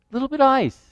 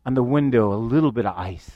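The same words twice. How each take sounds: First: Higher, stressed repetition of little bit of ice; raised repeat. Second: Much lower and softer; hushed suspense. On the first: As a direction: lift it as the ice grows. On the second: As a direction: drop the voice as tension creeps in. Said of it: "I start to see". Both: Retold or imitated.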